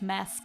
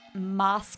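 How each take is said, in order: First: The word is said with an American vowel. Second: The word is said with a British vowel. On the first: It is the speaker's usual way of saying it. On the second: It copies how British speakers say it.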